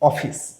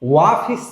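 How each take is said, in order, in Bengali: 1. শব্দটি সাধারণ o ধ্বনি দিয়ে শুরু হয়। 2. শব্দটি w ধ্বনি দিয়ে শুরু হয়। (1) "ও এর মতো উচ্চারিত হয়েছে" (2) "ওয়াফিস না"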